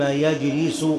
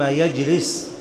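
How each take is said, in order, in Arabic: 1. ينتهي الفعل بضمة. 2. ينتهي الفعل بلا حركة. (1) "تكون الجملة استئنافية" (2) "ثم يجلس بالجزم"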